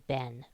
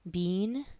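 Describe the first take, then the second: First: It is said like ben, American style. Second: It is said like bean, England style.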